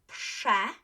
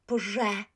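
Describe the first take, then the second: First: The sound after p is a voiceless hiss. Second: The sound after p is a voiced buzz. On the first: The speaker calls it right. "So what you will pronounce is this, pshe" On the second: The speaker calls it wrong. "So not prz, prze, prze"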